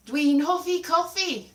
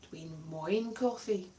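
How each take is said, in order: First: Dwi'n hoffi coffee, said clearly in Welsh; Welsh sentence demo. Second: Dwi'n moyn coffee, lower and softer; the South Wales way, said quietly; Dwi'n moyn coffee, colloquial southern Welsh; southern Welsh version. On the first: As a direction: model the textbook Welsh phrase. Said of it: "Moin means like". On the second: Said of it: "south version of hoffy". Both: Shown as a demonstration.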